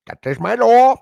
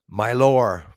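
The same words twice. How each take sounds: First: High, loud, rising declaration; proud shout. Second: Said in the usual way. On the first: Real, not acted. Proudly claiming his lore to the chat, loud and high. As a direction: crow it out proudly.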